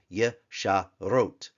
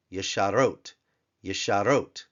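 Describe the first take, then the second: First: "yesharot" slowly as ye, sha, rote; separated syllables. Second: Said in the usual way. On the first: Shown as a demonstration. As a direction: sound out "yesharot" with gaps. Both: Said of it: "two open syllables, one closed syllable".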